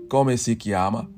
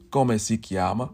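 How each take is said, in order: Both takes have the same delivery.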